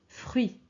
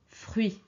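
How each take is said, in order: Both takes have the same delivery.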